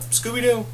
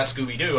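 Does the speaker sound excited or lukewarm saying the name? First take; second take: lukewarm; excited. First: It is said with mild, low-key interest. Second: It is said with loud, eager excitement. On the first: The speaker merely likes the show. "I've been more like, oh" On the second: The speaker is a huge fan of the show. "I've never been like, fuck yeah"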